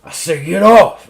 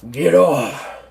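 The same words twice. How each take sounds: First: Much louder, higher repeated command; angry shouted order. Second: Loud growled command from a general; gruff order. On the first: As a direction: shout it as a furious general losing patience. Repeats order, shoves doctor off. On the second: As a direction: order the doctor away, louder and higher. General snaps at the doctor. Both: Acted.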